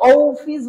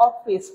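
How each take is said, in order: First: অফিস with a long round O, "oh-fis"; wrong pronunciation. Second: অফিস with a short open "aw", "awfis"; correct pronunciation. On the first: Teacher showing what we don't say, long "oh-fis" for অফিস. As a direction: stretch অফিস open on a long "oh". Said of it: "এটা তো অফিস বলি না আমরা". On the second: Teacher showing what we do say, short "awfis" for অফিস. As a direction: begin অফিস on a plain short aw. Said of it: "এটা অফিস". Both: Shown as a demonstration.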